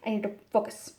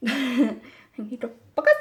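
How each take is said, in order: First: Said in the usual way. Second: Mock self-scolding with a punched FOCUS; laughing self-command. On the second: Real, not acted. Repeats it, laughing, hammed up.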